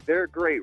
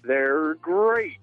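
First: It is said in his normal voice. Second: It is said in a Tony the Tiger voice.

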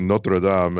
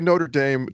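First: It is pronounced the French way. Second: It is pronounced the American English way. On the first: It refers to the cathedral in France. "and I hear the church in France" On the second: It refers to the American university. "to me, you're talking about a university"

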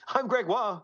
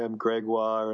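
First: It is said in a lively, flowery, theatrical way. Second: It is said in a weak, listless, sickly way. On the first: "You're very flowery today" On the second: "make sure I don't sound"

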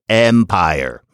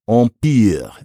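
First: It is said with an English pronunciation. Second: It is said with a French pronunciation. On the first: "we pronounce it empire because that works better with our pronunciation system" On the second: "a word like empire in French"

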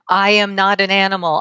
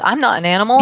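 First: I am is said as two full words. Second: I am is shortened to one syllable. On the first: The speaker calls it wrong. "you might want to be full out" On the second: The speaker calls it right. "people forget to use contractions"

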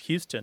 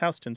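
First: It is said like the Texas name Houston. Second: It is said like New York's Houston Street. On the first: The speaker calls it wrong. "assume that it's pronounced Houston, as in Sam Houston. But it isn't" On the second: The speaker calls it right. "It's Houston Street, spelled exactly the same way"

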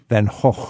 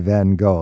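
First: The name is said with a Dutch pronunciation. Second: The name is said with an English pronunciation. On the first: "How do the Dutch pronounce Vincent van Gogh?" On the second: "it's okay for us English speakers to say Van Gogh"

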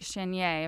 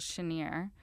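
First: The name is given a standard French pronunciation. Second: The name is given a local Cajun pronunciation. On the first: The speaker calls it wrong. "if you were saying it in French" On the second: The speaker calls it right. "the way a true Cajun would pronounce it"

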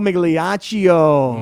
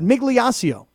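First: The name is said with an Italian pronunciation. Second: The name is said with an American pronunciation.

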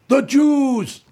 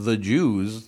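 First: It is said in a heavy, dramatic way. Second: It is said in a flat, ordinary way. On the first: It is played up for drama. The speaker calls it wrong. "saying it like this" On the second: It is a simple, ordinary mention. The speaker calls it right. "Just go, how about"

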